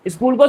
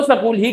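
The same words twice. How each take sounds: First: स्कूल as skool, S and K together; one-syllable स्कूल; standard pronunciation. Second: स्कूल said as sa-kool; two-syllable sa-kool for स्कूल; teacher's mispronunciation. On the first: Shown as a demonstration. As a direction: say स्कूल without a vowel after the S. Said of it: "स्कूल को तो स्कूल ही कहते थे". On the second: Retold or imitated. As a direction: add a short vowel after the S in स्कूल. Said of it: "स्कूल ही कहते थे".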